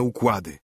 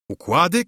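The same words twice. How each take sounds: First: Said in the usual way. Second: Głośniejsze, wyższe pytanie z oburzeniem; podchwyć słowo z zapałem, pytająco; zapalczywy okrzyk. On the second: A narrator's reading. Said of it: "krzyknął sędzia z niezwykłym zapałem". (wykrzyknięte z niedowierzaniem)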